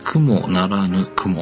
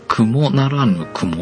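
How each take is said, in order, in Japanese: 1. 関東風のピッチパターンだ。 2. 関西風のピッチパターンだ。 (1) "関東風" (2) "関西風だと"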